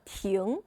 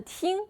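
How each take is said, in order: First: The syllable is said on a rising tone. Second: The syllable is said on a high level tone. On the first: It means to stop. "arrêter, est le deuxième don" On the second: It means to listen. "ça veut dire écouter, est le premier don"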